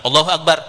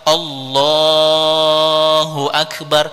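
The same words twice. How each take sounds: First: The phrase is said short, without lengthened vowels. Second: The phrase is drawn out with lengthened vowels. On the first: The speaker calls it wrong. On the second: The speaker calls it right.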